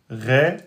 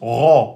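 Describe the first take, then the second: First: The syllable has a thin, fronted vowel. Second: The syllable is darker with stronger emphatic quality. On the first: The speaker calls it wrong. "si vous dites Ré, ça c'est faux" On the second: The speaker calls it right. "Ceux qui veulent l'emphatiser un peu plus"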